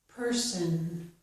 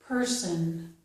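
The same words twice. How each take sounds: No difference in how they are said.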